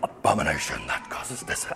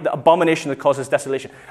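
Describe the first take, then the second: First: It is said in a deep Darth Vader voice. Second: It is said in his normal voice.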